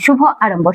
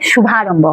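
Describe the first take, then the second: First: The two words are said separately, vowels kept apart. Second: The two words merge into one with joined vowels. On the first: "শুভ আরম্ভ যখন আমরা বলছি" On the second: "উচ্চারণের ফলে ... মিলে ... শুভারম্ভ হয়ে যাচ্ছে"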